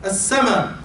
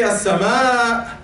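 First: "as-sama'" brief, ending on a short a; short Egyptian form. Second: "as-sama'" slow, final a held long; drawn-out vowel. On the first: Teacher correcting to Egyptian speech, short "as-sama'". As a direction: cut the final vowel of "as-sama'" short. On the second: Teacher showing what Egyptians don't say, long-held "as-sama'". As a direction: hold the last vowel of "as-sama'" before the catch. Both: Shown as a demonstration. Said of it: "We don't say".

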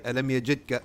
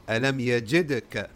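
First: Alam yajidka with the d swallowed into the k; missing qalqala. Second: Alam yajidka with a bounced, released d; qalqala on d. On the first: Teacher shows students what not to say, no qalqala. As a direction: run d straight into k in yajidka, no bounce. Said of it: "you don't say". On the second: Teacher corrects the mistake, echoing d. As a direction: pop the d in yajidka before the k. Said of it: "You have to pronounce it". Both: Shown as a demonstration.

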